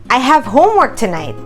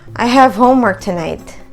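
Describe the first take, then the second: First: It is said in a happy, excited tone. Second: It is said in a bored, flat tone. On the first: The speaker is excited to do the homework. "Say it in a happy tone" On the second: The speaker does not want to do the homework. "say it in this tone"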